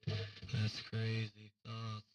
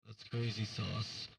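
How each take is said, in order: First: Slow, stretched out crazy sauce; slow drawl. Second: Said in the usual way. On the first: Shown as a demonstration. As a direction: drag out each word.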